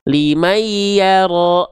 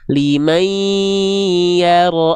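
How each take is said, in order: First: The nasal sound is rushed and cut short. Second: The nasal sound is held for two beats. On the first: The speaker calls it wrong. "jangan buru-buru" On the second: The speaker calls it right. "kalau ada dengung tahan dua harokat"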